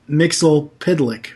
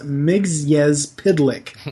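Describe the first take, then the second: First: The name begins with a short 'Mixel' sound. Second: The name begins with a longer 'Mix-yez' sound. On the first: The speaker calls it wrong. "which is incorrect" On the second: The speaker calls it right. "His name is actually pronounced"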